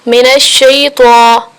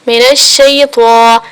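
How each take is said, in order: Both takes have the same delivery.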